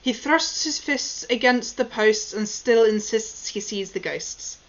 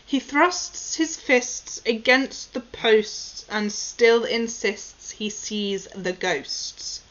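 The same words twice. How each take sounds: First: It is said at a faster pace. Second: It is said at a slower pace.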